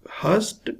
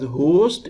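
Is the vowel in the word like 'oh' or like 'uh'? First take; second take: uh; oh. First: The vowel sounds like 'uh'. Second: The vowel sounds like 'oh'. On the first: A large number. "when it is pronounced as hust, it means in large number" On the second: A person who has guests. "When it is pronounced as host, it means a person who has guests"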